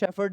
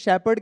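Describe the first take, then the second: First: The middle consonant is an f sound. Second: The middle consonant is a plain p sound. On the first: The speaker calls it wrong. "शेफर्ड नहीं कहते" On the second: The speaker calls it right. "सो इसको शेपर्ड कहते हैं"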